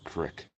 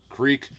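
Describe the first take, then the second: First: It is said in a Pennsylvania accent. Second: It is said in a standard accent.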